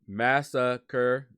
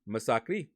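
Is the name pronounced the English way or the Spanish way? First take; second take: English; Spanish. First: The name is pronounced like the English word. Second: The name is pronounced the Spanish way. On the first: The speaker calls it wrong. "No, that is not how you pronounce it" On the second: The speaker calls it right. "his name is actually Masacre"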